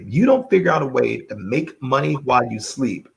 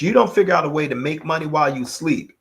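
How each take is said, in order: First: It is spoken at a slower pace. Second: It is spoken at a faster pace.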